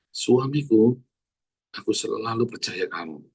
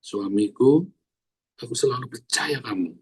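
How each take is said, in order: First: Gentle sincere demo. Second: Tenderly, as a model for wives; sincere model line. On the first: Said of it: "Ayo para istri-istri". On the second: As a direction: say it gently to your husband. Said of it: "kamu harus bilang". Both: Shown as a demonstration.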